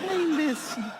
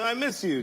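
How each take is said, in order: First: It is said softly with a gently falling tune. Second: It is said in a gruff, offhand, macho way. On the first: The speaker sincerely misses the person. "that's how you say it. I miss you. Like sloping down" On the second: The speaker hides the feeling to seem manly. "I gotta go like, yeah, ... Dirt, you know, nails"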